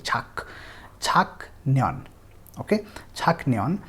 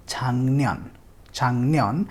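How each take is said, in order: First: छाकन्यन slowly, with a hard K; slow spelled reading. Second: छांगन्यन with the K turned into NG; nasalized pronunciation. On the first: Teacher shows the reading before the rule. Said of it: "छाक होना चाहिए". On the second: Teacher models the correct छांगन्यन. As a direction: say छांगन्यन, NG before NY. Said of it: "छाकन्यन नहीं पढ़ेंगे". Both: Shown as a demonstration.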